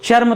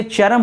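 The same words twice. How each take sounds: First: चर्म run together as "charm"; the mistaken clustered चर्म; wrong pronunciation. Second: चरम as two syllables, "cha-ram"; चरम opened out, "cha-ram"; correct pronunciation. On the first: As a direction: say चर्म with no vowel between r and m. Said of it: "चर्म तो होता नहीं है". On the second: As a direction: say चरम with a vowel between r and m. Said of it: "इसीलिए चरम होता है". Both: Shown as a demonstration.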